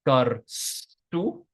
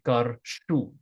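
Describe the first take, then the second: First: The consonant is a plain 's' sound. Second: The consonant is an 'sh' sound. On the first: "the S H sound is frequently transformed into an S" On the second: "some people might say karshu"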